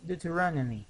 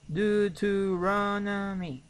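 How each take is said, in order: First: Said in the usual way. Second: "Deuteronomy" slowly, syllable by syllable, higher; slow, raised teaching model of "Deuteronomy"; slow pronunciation model. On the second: Shown as a demonstration. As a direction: stretch every syllable of "Deuteronomy". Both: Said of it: "The pronunciation".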